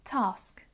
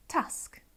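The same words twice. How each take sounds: First: "task" with a long ah, as tahsk; long-vowelled "task"; southern English task. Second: "task" with a short a as in cat; short-vowelled northern "task"; northern English task. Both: Shown as a demonstration. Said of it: "southern northern divide going on there".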